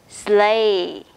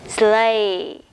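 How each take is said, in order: Both takes have the same delivery.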